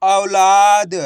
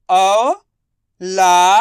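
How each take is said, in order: First: Said in the usual way. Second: Slow, spelled-out first syllable of औलाद; drawn-out syllables. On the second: Shown as a demonstration. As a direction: stretch औलाद into its sounds, slowly. (औलाद को धीरे-धीरे अक्षर तोड़कर) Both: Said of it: "दा म उ की मात्रा दो".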